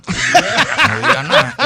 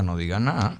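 First: High, slow, laughing plea; urging quote. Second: Said in the usual way. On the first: Retold or imitated. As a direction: drag it out, urgent. (súplica aguda y lenta entre risas) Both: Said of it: "Yo le decía".

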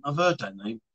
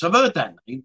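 First: Much softer and lower, heard barely lifted; muttered repeat. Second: Said in the usual way. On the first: Real, not acted. Echoing a viewer's comment, softly muttered to himself. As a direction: mutter it again to yourself.

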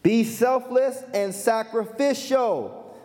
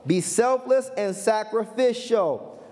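Both takes have the same delivery.

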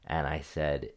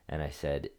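Both takes have the same delivery.

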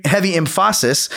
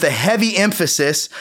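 First: Emphasis stressed on its middle syllable, em-FAH-sis; wrong-syllable stress. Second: Said in the usual way. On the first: Shown as a demonstration. Joking about a strict upbringing, emphasis stressed as em-FAH-sis. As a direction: shift the stress in emphasis to PHA. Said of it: "depending upon where you put the emphasis on that syllable". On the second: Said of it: "where you put the emphasis".

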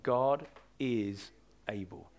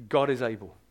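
First: Slow and softer, letting "God is able" sink in; quiet, deliberate conviction; slow, soft emphasis. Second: Said in the usual way. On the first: Shown as a demonstration. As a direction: press the words gently into the heart. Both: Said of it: "I just want that to go deep down".

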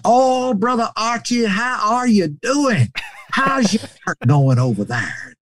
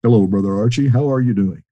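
First: High, drawn-out, exuberant greeting; high-pitched old preacher on the phone; Brother Cates. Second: Gentle, smooth voice; calm, gentle impression of a kindly preacher; Brother Elkins. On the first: Retold or imitated. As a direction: greet a dear friend in a high, slow drawl. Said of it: "he got on the phone and". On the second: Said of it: "I hear that gentle, smooth voice".

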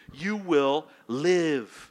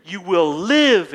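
First: Slow promise. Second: Loud promise. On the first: God's promise quoted slowly. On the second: Jesus quote at peak volume. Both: Acted.

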